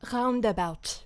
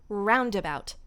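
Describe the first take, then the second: First: The R is made at the back of the mouth. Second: The R is made at the front of the mouth. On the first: "I use the back one" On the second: "which is up front"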